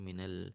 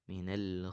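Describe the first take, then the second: First: The l sound bounces off quickly. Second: The l sound is held steadily. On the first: The speaker calls it wrong. "lamnya mantul ya" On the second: The speaker calls it right. "jangan sampai mantul, ditahan"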